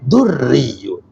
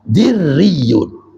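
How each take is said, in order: First: The first vowel is a 'u' sound. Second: The first vowel is an 'i' sound. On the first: It means pushing away darkness. "dibaca dhamma" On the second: It means shining brightly. "din baca kasro dali"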